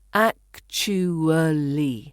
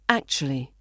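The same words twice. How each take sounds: First: Every syllable is pronounced fully and carefully. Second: It is said fast with sounds reduced. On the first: "the full pronunciation" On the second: "when we say it fast"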